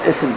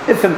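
First: The middle consonant is a hissing s sound. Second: The middle consonant is a th sound. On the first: The speaker calls it wrong. "Leysa ism" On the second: The speaker calls it right. "ism bil-seh"

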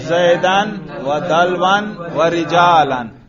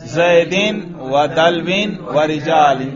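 First: Each word ends with the vowel a plus n. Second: Each word ends with the vowel i plus n. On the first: The words are in the accusative case. "اب تینوں پر نصب پڑھو" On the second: The words are in the genitive case. "تینوں پر جر پڑھو"

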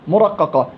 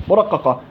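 The two takes are said the same way.

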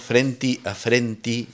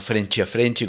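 First: The t in frente sounds like a plain t. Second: The t in frente sounds like ch. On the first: This is how the singer pronounces it. "Frenti a frenti, dice" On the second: This is the usual Rio de Janeiro pronunciation. "no frenchi a frenchi, como uno está acostumbrado... como el carioca"

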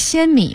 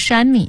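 First: The first syllable begins with an 'x' sound. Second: The first syllable begins with an 'sh' sound. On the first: "我们现在说仙米嘛" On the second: "那个字儿还其实很多会念成山米啊"

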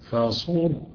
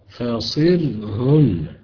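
First: The s takes a u vowel and a heavy r. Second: The s takes an i vowel and a light r. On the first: "اللي هيضم الصاد هيفخم" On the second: "اللي هيكسر الصاد هيرقق"

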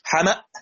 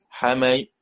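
First: The final hamza becomes a long a vowel. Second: The final hamza is softened toward a y sound. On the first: "لما وقفت على الهمزة صارت همزة ساكنة وقبلها مفتوح يبقى تبدل" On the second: "تسهيل بين بين مع جزء من الكسرة بينها وبين الياء"

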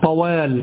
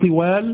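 First: The first syllable has the vowel a. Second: The first syllable has the vowel i. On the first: The speaker calls it right. "هذا بفتح الطاء" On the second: The speaker calls it wrong. "لا تقول طوال بكسر الطاء"

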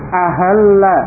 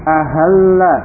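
No difference in how they are said.

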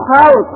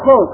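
First: The first vowel is an a sound. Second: The first vowel is a u sound.

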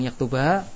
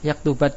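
First: The final vowel is lengthened before a pause. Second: The final vowel runs straight into the next word. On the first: "kemudian waqaf panjang yaktuba" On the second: "Kalau dibacanya baca wasal, yuridani an yaktubat darsa, alifnya enggak terbaca"

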